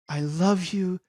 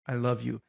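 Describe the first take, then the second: First: It sounds warm and sincere. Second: It sounds cold and threatening.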